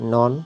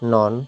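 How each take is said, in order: The two takes are said the same way.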